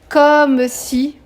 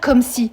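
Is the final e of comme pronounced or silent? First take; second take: pronounced; silent. First: The final e of comme is pronounced. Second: The final e of comme is silent. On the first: The speaker calls it right. "le e, il se prononce quand le mot qui suit commence par une consonne" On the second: The speaker calls it wrong. "on peut pas dire comme si"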